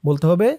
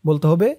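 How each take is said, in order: The two takes are said the same way.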